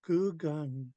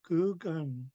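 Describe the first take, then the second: The two takes are said the same way.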